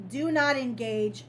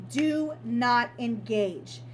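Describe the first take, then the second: First: Said in the usual way. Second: "Do not engage" slowly, each word weighted; emphatic. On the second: Real, not acted. Warning listeners about no contact, slow and emphatic on "Do not engage". Repeats her key advice word by word.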